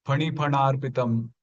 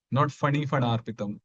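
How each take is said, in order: First: "Phani phanarpitam" with an aspirated p from both lips; "Phani phanarpitam" with a breathy two-lip p; correct phani. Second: "phani phanarpitam" with an English f; "phani phanarpitam" said the Hindi-speaker way; wrong phani. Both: Shown as a demonstration.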